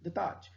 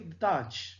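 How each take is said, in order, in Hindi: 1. "Taj" शब्द पर stress है। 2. "Taj" शब्द पर स्ट्रेस है।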